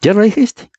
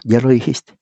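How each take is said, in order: First: Much higher, triumphant "Ya lo dijiste"; triumphant repeat. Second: Said in the usual way. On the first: Shown as a demonstration. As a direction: pounce on "dijiste", voice jumping up.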